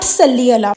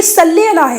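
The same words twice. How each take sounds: First: Very slow صلی علی with صلی ending in a short i; wrong pronunciation. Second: Slow صلی علی with صلی said as sallē, open e ending; correct pronunciation. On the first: Correcting a video's claim, slow mock of the error. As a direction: draw out صلی علی as sallī, the mistaken form. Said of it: "it's not". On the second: Showing viewers the proper form, slow and emphatic. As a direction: stress صلی, ending it on e not i. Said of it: "یہ صلی علی ہے". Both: Shown as a demonstration.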